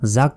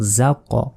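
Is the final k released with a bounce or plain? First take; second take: plain; bounced. First: The final k is closed plainly without a bounce. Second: The final k is released with an echoing bounce. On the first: The speaker calls it wrong. "জাক নয়" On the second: The speaker calls it right. "একটা ধাক্কা দিতে হবে, প্রতিধ্বনির মতো উচ্চারণ হবে"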